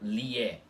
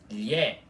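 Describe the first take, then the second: First: A plain L plus an 'ee' glide starts it. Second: A single palatal 'lh' sound starts the syllable. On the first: The speaker calls it wrong. "e não lié" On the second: The speaker calls it right. "o próprio nome da letra já diz, lhé"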